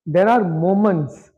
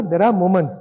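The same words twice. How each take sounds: First: Are drawn out and leaned on, slowly; There are moments, said slowly with weight on are; slow stress on are. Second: Said in the usual way. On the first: Shown as a demonstration.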